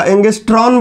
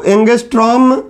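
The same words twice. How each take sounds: First: "एंगस्ट्रॉन" ending in an n; n in place of m at the end of "एंगस्ट्रॉन"; common mispronunciation. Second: "एंगस्ट्रॉम" ending in an m; correct pronunciation. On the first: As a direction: say "एंगस्ट्रॉन" with a final n. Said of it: "एंगस्ट्रॉन बोलते हैं लोग". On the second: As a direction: say "एंगस्ट्रॉम" with a final m. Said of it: "म आएगा". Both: Shown as a demonstration.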